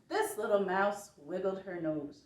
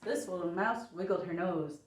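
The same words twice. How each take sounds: First: It is said at a slow pace. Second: It is said at a faster pace.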